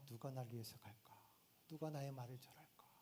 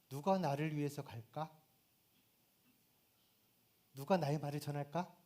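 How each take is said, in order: First: It is murmured softly and absently to oneself. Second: It is spoken directly, as if to a listener. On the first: The question is mused aloud to no one. The speaker calls it right. "시선을 떨구고 그냥 멍하니 ... 아주 세미한 음성" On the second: The question is put to a particular listener. The speaker calls it wrong. "하나님이 이사야를 보고"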